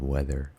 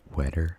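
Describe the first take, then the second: First: The middle consonant is a th sound. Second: The middle consonant is a t sound. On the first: The speaker calls it right. "instead of weather" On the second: The speaker calls it wrong. "I want them to rhyme"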